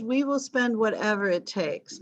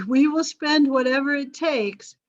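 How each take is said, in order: First: Said in the usual way. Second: Louder, pompous government pledge; amused mock official vow; mock grand promise. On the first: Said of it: "the British government says". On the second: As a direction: puff it up like an official making a big promise.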